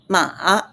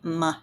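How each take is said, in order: First: It is said with the third tone. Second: It is said with the light neutral tone. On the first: It means horse. "definitely horse" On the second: It marks a question. "the light sound ma is the question indicator"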